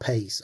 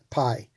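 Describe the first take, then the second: First: The word sounds like the English word pace. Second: The word does not sound like pace. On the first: The speaker calls it wrong. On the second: The speaker calls it right.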